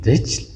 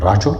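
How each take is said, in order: First: "رجل" said rijl, an i after the r; kasra on ra. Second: "رجل" said rajul, an a after the r; fatha on ra. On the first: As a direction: say "رجل" as rijl, one syllable. («رجل» با زیر: رِجْل) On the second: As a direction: say "رجل" as ra-jul, two syllables. («رجل» با زبر: رَجُل) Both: Shown as a demonstration.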